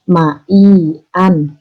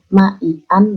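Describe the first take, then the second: First: The middle vowel is held for two beats. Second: The middle vowel is held short. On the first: The speaker calls it right. "dua ketuk" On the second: The speaker calls it wrong.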